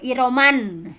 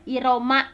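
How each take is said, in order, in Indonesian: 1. Kata ini berakhir dengan bunyi n yang ditambahkan. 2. Kata ini berakhir pada vokal tanpa n. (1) "tidak dibaca iroman" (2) "iroma enggak enggak dibaca e"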